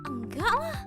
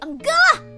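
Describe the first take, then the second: First: It is said in a doubtful, questioning way. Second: It is said in a strong, firm way. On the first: The speaker doubts something. "it's more like really, really kind of thing. Really enggak lah when you're doubting something" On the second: The speaker strongly says no. "it's more like strongly no"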